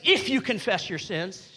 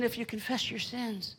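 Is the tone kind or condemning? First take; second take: condemning; kind. First: It is said in a condemning tone. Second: It is said in a kind tone.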